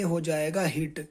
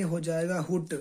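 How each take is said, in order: First: ہٹ said as "hit" with a short i; zer vowel reading. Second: ہٹ said as "hut" with a short u; pesh vowel reading. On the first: Teacher shows the zer vowel: ہٹ as hit. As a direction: read ہٹ as hit, with the zer sound. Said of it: "زیر کی حرکت ہے". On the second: Teacher shows the pesh vowel: ہٹ as hut. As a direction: read ہٹ as hut, with the pesh sound. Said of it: "پیش کی حرکت ہے". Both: Shown as a demonstration.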